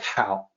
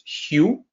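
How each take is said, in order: First: The vowel sounds like the one in 'cow'. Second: The vowel sounds like the one in 'you'. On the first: "it's going to look like it should be pronounced like how, like how are you" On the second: "do not mistake this as Hugh"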